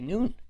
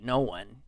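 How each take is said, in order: First: It is said as one syllable, noon. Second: It is said as two separate syllables. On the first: The speaker calls it wrong. "you'd look at that and you'd say noon" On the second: The speaker calls it right. "N O O N E, no one"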